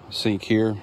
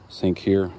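Both takes have the same delivery.

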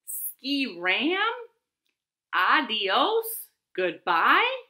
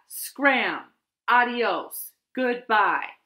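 First: SKI RAM, ADIOS and GOODBYE each rising like a question; puzzled questioning. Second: Loud, emphatic send-off with falling endings; firm dismissal. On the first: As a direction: sound out each word, baffled, lifting the endings. Bat puzzles over the note. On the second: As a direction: send them packing, each word a command. Squirrel's last note ordering Bat out. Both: A narrator's reading.

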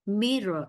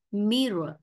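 The two takes are said the same way.

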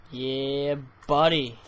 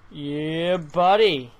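First: Said in the usual way. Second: Shouted, louder buddy; loud yeah buddy. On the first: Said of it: "repeated as Yeah, buddy". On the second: Shown as a demonstration. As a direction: punch it out louder. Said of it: "repeated louder".

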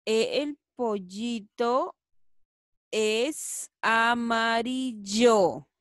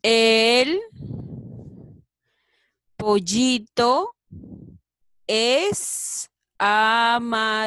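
First: Slow, evenly paced sentence; slow reading again. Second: Loud, slow, word by word; slow syllabic reading. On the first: Teacher rereads the sentence slowly at normal volume. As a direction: read it through slowly, in one go. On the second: Teacher modelling a sentence for children, slow and loud. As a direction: read it out slowly to the class, word by word. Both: Shown as a demonstration. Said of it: "A ver qué dirá, chicos".

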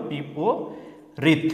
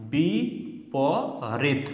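First: বিপরীত said as one slow word; whole word drawn out. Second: বি, প, রিত each said alone with pauses; broken into parts. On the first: Teacher giving learners the whole word, বিপরীত said slowly and drawn out. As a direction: stretch বিপরীত out slowly, its parts joined. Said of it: "পুরোটা হলো". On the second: Teacher splitting the word for learners, বি, প, রিত spaced apart. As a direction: break it as বি … প … রিত. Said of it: "ভেঙে ভেঙে উচ্চারণ করে". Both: Shown as a demonstration.

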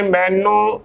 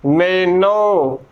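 First: ਮੈਨੂੰ as mai-noo; wrong final oo. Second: ਮੈਨੋ slowly as mai-no, falling; final o. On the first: Teacher naming the common misreading, ਮੈਨੂੰ ending in oo. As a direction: end ਮੈਨੂੰ on a nasal oo. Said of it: "ਉਚਾਰਨ ਗਲਤ ਹੈ". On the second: Teacher modelling the correct reading, ਮੈਨੋ ending in o. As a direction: stretch ਮੈਨੋ and end on o. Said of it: "ਉਚਾਰਨ ਕਰਨਾ ਹੈ". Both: Shown as a demonstration.

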